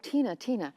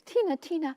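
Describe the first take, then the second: First: It is said in the speaker's ordinary voice. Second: It is said in a put-on, imitated voice.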